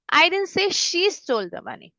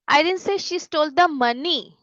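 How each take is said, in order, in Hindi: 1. Stress "she" शब्द पर है। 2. स्ट्रेस "money" शब्द पर है। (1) "मतलब किसी और ने चुराया होगा. Maybe someone else stole it" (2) "मतलब उसने कुछ और चुराया है, पैसे नहीं चुराए"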